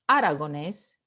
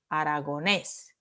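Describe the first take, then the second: First: The stress falls before the last syllable. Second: The stress falls on the last syllable. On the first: The speaker calls it wrong. "You don't say aragonés" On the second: The speaker calls it right. "You say aragonés. ... La última sílaba es tónica"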